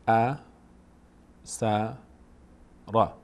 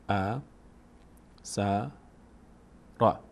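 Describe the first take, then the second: Both takes have the same delivery.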